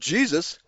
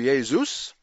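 First: The name begins with an English J sound. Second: The name begins with a Y sound. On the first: "these other languages don't pronounce it Jesus" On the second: "but pronounce it primarily Jesu or Jesus"

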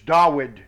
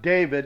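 First: The middle consonant is a W sound. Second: The middle consonant is a V sound. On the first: The speaker calls it right. "it's Dawid with a W" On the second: The speaker calls it wrong. "It's not David"

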